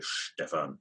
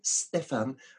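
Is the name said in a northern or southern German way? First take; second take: southern; northern. First: The name is said the southern German way. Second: The name is said the northern German way. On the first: The speaker comes from southern Germany or is drunk. "that comes from the lower part of Germany" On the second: The speaker comes from northern Germany. "that means you come from the north of Germany"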